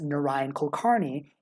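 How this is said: The name is said with English-style sounds. It is an easier version for English speakers. "pronouncing my name by default as Narayan Kulkarni in most English-speaking contexts"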